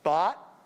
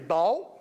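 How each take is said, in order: First: It uses the same vowel as cot. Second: It uses a traditional Southern style vowel. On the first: "where cot and caught are the same vowel" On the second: "which is a traditional Southern pronunciation"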